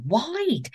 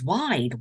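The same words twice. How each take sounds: First: WIDE swooping high, then falling; emphatic WIDE. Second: Said in the usual way. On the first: A narrator's reading. Camper stressing the bear's girth, emphatic WIDE. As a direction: repeat WIDE higher, stretched for effect.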